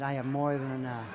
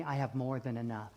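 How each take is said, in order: First: Firmer, fuller declaration; like you mean it. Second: Said in the usual way. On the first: Shown as a demonstration. Preacher coaching congregation to repeat it, with conviction. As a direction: state it with conviction. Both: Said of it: "Say it like you mean it".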